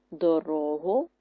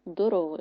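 First: ДоРОгу with the middle syllable stressed; do-RO-hu, weight in the middle; stress on second syllable. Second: ДороГУ with the final syllable stressed; do-ro-HU, weight at the end; stress on last syllable. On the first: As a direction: draw out РО in дорогу. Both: Shown as a demonstration. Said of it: "Наголос може змінити значення слова".

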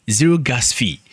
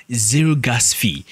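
The two takes are said the same way.

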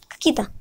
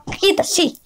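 First: Quiet echo. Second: Caquita said high and bright with glee; gleeful caquita. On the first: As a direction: murmur caquita to yourself. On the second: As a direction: sing out caquita, delighted with the rude word. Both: Real, not acted. Kid repeats the silly word.

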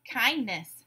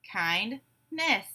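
First: Said in the usual way. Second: "Kindness" in two separated beats; syllable by syllable. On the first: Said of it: "I will give you a word". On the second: Shown as a demonstration. Class breaks the word apart together, syllable by syllable. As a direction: say "Kindness" as kind, pause, ness. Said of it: "break it apart into syllables".

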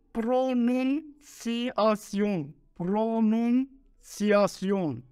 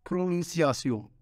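First: "pronunciación" spelled out very slowly, syllable by syllable. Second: "Pronunciación" said smoothly in one go at normal speed. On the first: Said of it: "Mucho difícil palabra". ("pronunciación" muy despacio, sílaba por sílaba) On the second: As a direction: run "Pronunciación" together without breaking it up. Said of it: "¿Qué es eso?". ("Pronunciación" de corrido, a velocidad normal) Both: Shown as a demonstration.

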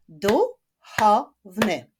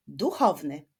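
First: "Duchowny" in three slow, loud, separate beats; split into syllables. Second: Said in the usual way. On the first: Shown as a demonstration. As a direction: clap out "Duchowny" slowly, syllable by syllable. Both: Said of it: "Zapraszam do wyklaskiwania sylab".

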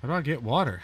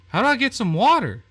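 First: Said in the usual way. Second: Higher, louder exasperated yell; fed up, shout it at the game; frustrated shout. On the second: Real, not acted. Stuck player yells at the game, fed up. Stuck trying to get water.

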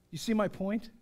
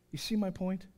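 Both takes have the same delivery.

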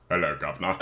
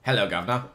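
First: Lower, softer, put-on Cockney "Hello, governor."; a deep English accent, done badly. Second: Put-on English accent. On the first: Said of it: "Fuck, that's awful". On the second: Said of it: "deep voice with an English accent".

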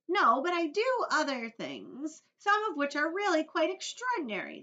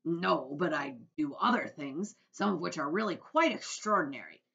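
First: Earthworm. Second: Loud, brash creature voice at normal pitch; centipede voice. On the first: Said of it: "that was the Earthworm". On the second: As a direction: boast boldly as the centipede. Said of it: "I'm sorry, that was the Earthworm". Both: A narrator's reading.

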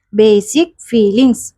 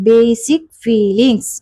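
The two takes are said the same way.

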